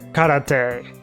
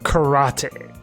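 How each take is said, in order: First: It is pronounced with Japanese-style vowels and rhythm. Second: It is pronounced with English-style vowels and stress. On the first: "in Japan they pronounce it karate" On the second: "not karate"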